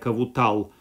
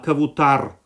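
First: The word ends with an L sound. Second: The word ends with an R sound. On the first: The speaker calls it wrong. "не с буквой «л»" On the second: The speaker calls it right. "а кавутар"

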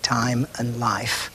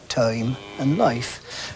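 First: The vowels sound like modern standard English. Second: The vowels have an older, unfamiliar quality.

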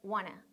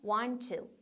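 First: The words are reduced to a quick wanna. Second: The two t sounds merge into one t sound. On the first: "want to를 좀 더 빨리 해서 wanna" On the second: "두 번을 한 번으로 줄이는 거예요"

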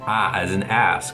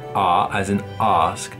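First: It is said in an American accent. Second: It is said in a British accent.

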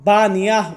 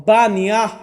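Both takes have the same delivery.

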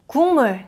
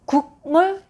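First: The first syllable ends in an ng sound. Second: The first syllable ends in a g sound. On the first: The speaker calls it right. "그 becomes 응" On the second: The speaker calls it wrong.

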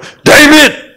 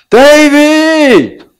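First: The name is called in an angry, scolding tone. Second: The name is called in a warm, loving tone. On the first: The caller is looking for him to punish him. The speaker calls it wrong. "이거는 벌 주기 위해서 찾는 거지" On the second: The caller is coming to rescue him. The speaker calls it right. "아빠 목소리 들어보니까 뭐예요? 벌 주러 오는 것 같지가 않아"

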